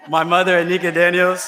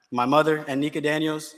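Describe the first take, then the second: First: Louder, laughing through the names. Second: Said in the usual way. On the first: Real, not acted. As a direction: laugh as you call them out again.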